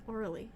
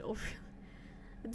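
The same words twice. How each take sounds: First: "Orly" said as OR-lee, quietly; saying Orly. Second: "Oh, really" drawn out very slowly in a whisper. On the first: Player comparing the pun's sounds, quiet Orly. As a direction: compare "Orly" against "Oh, really". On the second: Player testing how Orly becomes oh really, slow whisper. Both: Shown as a demonstration. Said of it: "How does Orly go?".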